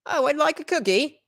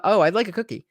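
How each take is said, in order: First: High-pitched mock English accent. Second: Said in the usual way. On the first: Shown as a demonstration. Guest shows how England rubbed off on them, mock English accent. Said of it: "uh, an English accent". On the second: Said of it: "What would that sound like with".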